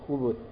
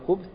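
First: A short u vowel comes after the b. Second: The b is followed directly by the th sound. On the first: "на ней есть дамма" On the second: "на ней есть сукун"

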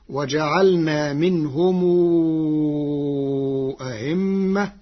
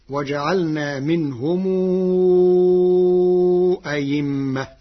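First: The second hamza is softened, between hamza and vowel. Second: The second hamza is replaced by a clear y sound. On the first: "بتسهيل الهمزة الثانية بين" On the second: "وإبدالها ياء خالصة"

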